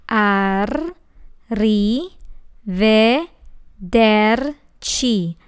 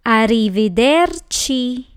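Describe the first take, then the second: First: "Arrivederci" very slow with a long trilled rr; rolled R. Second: "Arrivederci" at normal pace, R still trilled; normal speed. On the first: Teacher shows the rolling R in arrivederci, very slow. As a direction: roll the R hard and stretch every syllable. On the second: Teacher models arrivederci at natural speed. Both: Shown as a demonstration. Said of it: "That's a lot of R".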